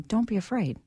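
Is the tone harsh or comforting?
comforting. It is said in a gentle, comforting tone. The listener is being reassured that it is okay. The speaker calls it right. "You say"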